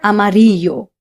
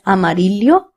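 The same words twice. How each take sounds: First: The double L sounds like 'y'. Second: The double L sounds like 'ly'. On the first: "or y" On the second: "They are pronounced as lia"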